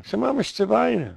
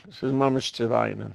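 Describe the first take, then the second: First: Much higher and faster, hammering the lament; high, fast emphatic restatement of "Mammisch"; emphatic repeat. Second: Said in the usual way. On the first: Shown as a demonstration. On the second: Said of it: "ich will auch sagen".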